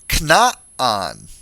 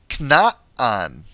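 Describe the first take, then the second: No difference in how they are said.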